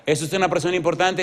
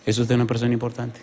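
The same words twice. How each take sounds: First: Raised-pitch pressing question; high, urgent pulpit question; insistent question. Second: Said in the usual way. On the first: Real, not acted. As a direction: press the congregation for an answer, voice up high. Repeats question, pressing congregation.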